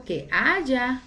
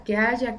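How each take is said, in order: First: Haya drawn out and leaned on, aya; teacher lingers on haya with a changed voice; stressed haya. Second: Said in the usual way. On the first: Shown as a demonstration. Teacher to students, dwelling on the word haya. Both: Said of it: "¿qué? Haya un alimento".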